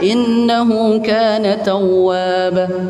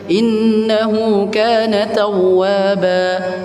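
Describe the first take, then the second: First: The final vowel is cut short. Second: The final vowel is held for two beats. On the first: The speaker calls it wrong. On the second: The speaker calls it right.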